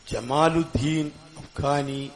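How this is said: The name begins with a soft 'j' sound. This is the standard form of the name. "ജമാലുദ്ദീൻ അഫ്ഖാനി എന്ന് പറയേണ്ടടുത്ത്"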